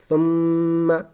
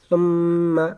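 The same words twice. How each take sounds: No difference in how they are said.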